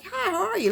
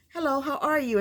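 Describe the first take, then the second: First: Much higher, sugary mock-friendly hello; fake-sweet greeting. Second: Friendly greeting. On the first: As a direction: sweeten "Hi, how are you?" high like an old friend. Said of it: "Like they're friends". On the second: Retold or imitated. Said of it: "she's smiling like they're friends".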